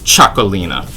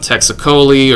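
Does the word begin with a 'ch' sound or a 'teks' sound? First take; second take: ch; teks. First: The word begins with a 'ch' sound. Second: The word begins with a 'teks' sound. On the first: The speaker calls it right. "it's pronounced like a C H" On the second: The speaker calls it wrong. "your friends by them saying"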